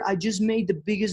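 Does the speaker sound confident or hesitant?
hesitant. It is said hesitantly, without energy or belief. The speaker lacks belief in the offer. The speaker calls it wrong. "that doesn't convey, you know, energy. That doesn't convey posture, belief"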